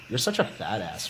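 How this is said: It is said in a playful, teasing tone.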